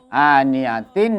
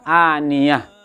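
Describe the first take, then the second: First: The word ends with a full tin sound. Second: The word ends with a soft h sound. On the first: The word is read without stopping on it. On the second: The reader stops on the word.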